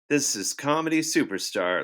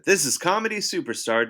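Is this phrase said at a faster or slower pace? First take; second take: slower; faster. First: The phrase is said at a slower pace. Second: The phrase is said at a faster pace.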